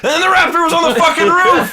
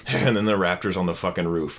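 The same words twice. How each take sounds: First: High, loud, disbelieving yell; incredulous shout. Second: Dry, low sarcastic prediction. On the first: Real, not acted. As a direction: shout it like you can't believe it happened. Disbelief that the prediction came true. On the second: Retold or imitated. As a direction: say it deadpan, like a joke you expect to come true. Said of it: "like, sarcastically".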